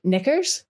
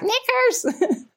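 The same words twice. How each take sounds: First: Slightly higher, lilting parrot voice; cockatoo saying knickers. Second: Very high, squawking parrot scream; screeching cockatoo. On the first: A cockatoo at Belfast Zoo greeting kids, lightly imitated parrot talk. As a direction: mimic a cockatoo saying the word. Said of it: "Kizzy would say". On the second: Kizzy the cockatoo screaming back at the zoo kids, high parrot screech. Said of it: "would scream back". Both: Retold or imitated.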